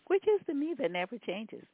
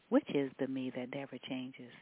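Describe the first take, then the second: First: It is said with a questioning tune. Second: It is said with a statement-like tune. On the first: The speaker calls it right. "There's a question mark here" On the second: The speaker calls it wrong. "Trying to get that inflection right"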